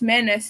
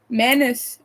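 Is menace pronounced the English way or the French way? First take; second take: English; French. First: The word is pronounced the English way. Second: The word is pronounced the French way. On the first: "it's menace in English" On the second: "I only know how to pronounce pronounce that word in French"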